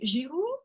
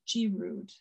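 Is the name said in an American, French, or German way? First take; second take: French; American. First: The name is said the French way. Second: The name is said the American way.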